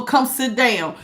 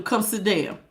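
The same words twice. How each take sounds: First: Said in the usual way. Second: A soft, earnest plea; softer, gentle invitation. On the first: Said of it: "somebody to tell you to go". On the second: Real, not acted. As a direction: come sit down, dropped softer and gentle. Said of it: "but I'm telling you".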